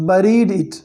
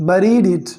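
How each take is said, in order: The two takes are said the same way.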